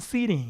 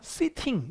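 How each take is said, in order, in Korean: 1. t는 flap으로 발음해요, 부드러운 d처럼 들려요. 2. t는 clear한 t로 발음해요. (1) "거의 서부 쪽은 sitting 이렇게 흘리는 거예요" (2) "영국 사람들은 앉아있으면 뭐라고요? sitting 이렇게"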